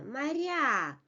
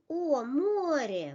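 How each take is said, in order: First: "моря" as ma-RYA, short a then stressed ending; "моря" with long falling final vowel; unstressed first vowel. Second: "море" as MO-rye, full O on the first syllable; "о, море" with long round first vowel; stressed O. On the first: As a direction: weaken the "о" in "моря" and stress the last syllable. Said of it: "unstressed position becomes". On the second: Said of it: "In stress position". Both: Shown as a demonstration.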